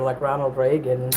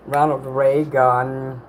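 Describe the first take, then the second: First: Said in the usual way. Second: Ronald Reagan stretched out very slowly; slow dreamy drawl. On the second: Shown as a demonstration. Streamer slowly drawing out Ronald Reagan to chat, slow dreamy delivery. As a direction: savor each syllable of Ronald Reagan, unhurried. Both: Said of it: "That's like spa music".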